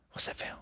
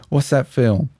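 First: Barely audible whispered quiz question; hushed catchphrase. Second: Said in the usual way. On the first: Pretend. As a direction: repeat it as a tiny whisper. Same catchphrase repeated as a whisper.

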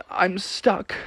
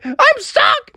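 First: Soft, higher-pitched whimper; small defeated voice. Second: Very high, squealed mock wail; crying panic. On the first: Acted. Froggy gives up behind the locked door, quietly defeated. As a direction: say it quietly, giving up. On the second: Froggy cries behind the locked door, panicking. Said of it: "started to cry and panic".

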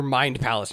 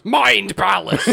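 First: Said in the usual way. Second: Drawn-out, slow, higher proclamation; hammed-up incantation. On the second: Wizard grabbing visitor's head, grandly proclaiming. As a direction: stretch both words like a grand spell.

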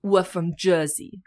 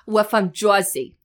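First: Slow, tentative Jersey accent; mild attempt at a Jersey accent. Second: Slow, louder, gum-chewing Jersey accent; broad Jersey, like a beehived gum-chewer. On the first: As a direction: passable Jersey accent, held back. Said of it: "When I do do an accent". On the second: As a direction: lean hard into the Jersey accent. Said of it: "chewing gum and that you've got a big beehive". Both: Shown as a demonstration.

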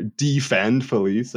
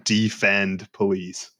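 First: Slow, drawn-out mocking read; mocking the sign. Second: Slow, flat reading of the sign; mock sign reading. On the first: Scoffing at the driver's sign, slow mocking drawl. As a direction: stretch out the words to mock them. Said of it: "I'd like to find out where". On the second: To friends, mocking the car sign, slow and flat. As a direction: read the sign out slowly and mockingly. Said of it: "and it said".

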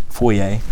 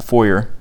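First: "foyer" said foy-AY, ending in an ay sound; French-style foyer. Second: "foyer" said FOY-er, ending in an r sound; American foyer. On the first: Teacher offering the other way to say it, foy-AY. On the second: Teacher offering one way to say it, FOY-er. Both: Shown as a demonstration. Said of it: "or however you want to say that".

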